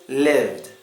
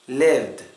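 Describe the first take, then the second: Both takes have the same delivery.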